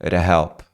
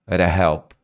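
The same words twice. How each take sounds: The two takes are said the same way.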